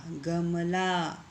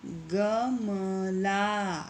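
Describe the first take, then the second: First: Said in the usual way. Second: गमला stretched very slowly, syllable by syllable. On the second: Shown as a demonstration. Teacher to pupils, sounding out गमला very slowly. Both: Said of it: "इसी तरह से ये आगे के जो शब्द हैं".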